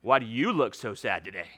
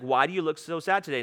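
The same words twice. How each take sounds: First: It sounds sighing and exasperated. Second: It sounds warm and genuinely caring.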